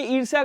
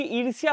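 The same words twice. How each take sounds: First: ईर्ष्या said "irsa", y dropped; wrong form. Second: ईर्ष्या with the y glide sounded; correct form. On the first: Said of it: "गलत लिखा हुआ है". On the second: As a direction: say ईर्ष्या as "irs-ya". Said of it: "क्योंकि ईर्ष्या होता है". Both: Shown as a demonstration.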